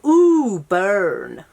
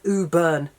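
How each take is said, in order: First: It is said in an American accent. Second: It is said in a British accent. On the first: The speaker calls it right. "I have to say it with an American accent" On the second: The speaker calls it wrong. "saying it with a British accent sounds just Ooh Burn. That sounds stupid"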